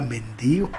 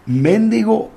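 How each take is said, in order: First: The stress falls on the second syllable. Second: The stress falls on the first syllable. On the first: This version plainly means a beggar. The speaker calls it right. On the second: In Mexico this version is a rude word. The speaker calls it wrong.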